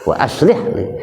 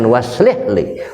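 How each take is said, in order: First: The vowel starts with a glottal stop. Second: The vowel is linked without a glottal stop. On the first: The speaker calls it right. "Tapi itu hamzah qata" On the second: The speaker calls it wrong. "jangan waslih li"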